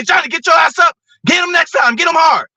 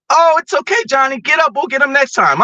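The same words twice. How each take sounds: First: Tough coach yelling. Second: Mocking a soft coach, much higher; a gentle, babying coach played much higher; soft coddling coach. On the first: Retold or imitated. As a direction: bark it like a hard-nosed coach. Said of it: "I want him to say". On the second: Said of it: "I don't want my coach to say".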